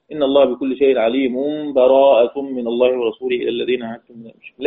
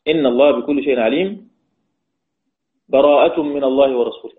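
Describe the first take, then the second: First: "عليم" runs straight into "براءة" with no pause; joined through. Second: A full stop with a breath between "عليم" and "براءة". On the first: Teacher demonstrating wasl, the verses joined without a break. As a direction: carry "عليم" right into "براءة". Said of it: "أو الوصل". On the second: Teacher demonstrating qat between al-Anfal and at-Tawba, with a breath. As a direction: pause and breathe after "عليم" before "براءة". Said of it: "القطع". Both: Shown as a demonstration.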